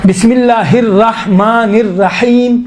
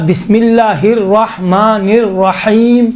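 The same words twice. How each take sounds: First: Slow "الرحمن الرحیم" with thin, light R. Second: Very slow "الرحمن الرحیم" with rounded, W-like R; heavy R. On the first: Teacher showing students one valid reading, slow with light R. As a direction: draw out "الرحمن الرحیم", keeping "ra" unrounded. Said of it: "لہذا رحمان بھی صحیح ہے". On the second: Teacher showing students the alternative reading, slow with heavy R. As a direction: stretch "الرحمن الرحیم", thickening "ra" towards "raw". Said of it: "واو جیسا". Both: Shown as a demonstration.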